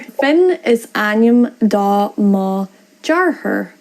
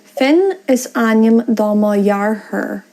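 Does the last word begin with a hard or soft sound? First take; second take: hard; soft. First: The last word starts with a hard d sound. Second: The last word starts with a softened consonant sound. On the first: The speaker calls it wrong. "So that's without lenition" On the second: The speaker calls it right. "With lenition"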